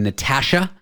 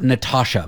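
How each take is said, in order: First: The A vowel is said the Canadian way. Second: The A vowel is said the American way.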